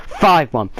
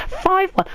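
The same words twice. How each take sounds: First: Said in the usual way. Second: High, disbelieving cry of the scoreline; incredulous. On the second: Real, not acted. Fan venting at the scoreline, high disbelief. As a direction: spit out the score in shock. Fan ranting about heavy defeat.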